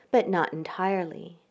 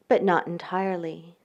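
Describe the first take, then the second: No difference in how they are said.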